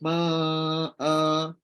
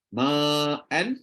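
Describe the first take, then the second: First: The word ends with a long vowel. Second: The word ends with an n sound. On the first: The reciter stops on this word. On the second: The reciter continues without stopping.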